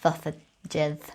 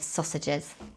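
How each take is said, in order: First: The S sounds are lisped like TH. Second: The S sounds are clear and hissing.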